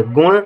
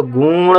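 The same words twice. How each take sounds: First: गुण with a brief u and nasal retroflex ending; the correct गुण, short "gu" then ṇ. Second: गुण with a stretched "oo", as "gooon"; गुण drawn out on a long ū. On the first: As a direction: keep the vowel of गुण short. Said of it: "गा में छोटे उ की मात्रा". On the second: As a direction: hold the vowel of गुण too long, showing the mistake. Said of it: "बड़े उ की मात्रा लिख देंगे". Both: Shown as a demonstration.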